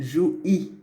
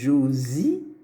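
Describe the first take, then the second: First: The words are joined without any z sound. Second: A z sound links the two words. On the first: The speaker calls it wrong. "c'est faux" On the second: The speaker calls it right. "c'est juste. Donc là, il y a le S pour faire la liaison avec le Y"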